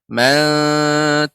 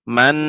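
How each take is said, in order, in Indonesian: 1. N akhir dilunakkan, lidah tidak menyentuh. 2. N akhir diucapkan penuh, lidah menyentuh.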